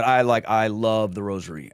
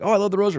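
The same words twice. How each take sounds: First: Plainly heartfelt, no show; sincere. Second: High-pitched imitation of everyone gushing; lightly mocking, raised-pitch enthusiasm. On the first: Real, not acted. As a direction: say it in earnest, pitched well below the gushing. Own sincere take after generic quote. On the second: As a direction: parrot a generic fan in a high voice. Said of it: "like, everyone's like".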